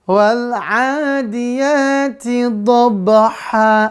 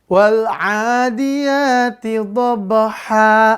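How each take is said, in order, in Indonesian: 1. Kata terakhir berakhir dengan a panjang dua ketukan. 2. Kata terakhir berakhir dengan a panjang dua ketukan.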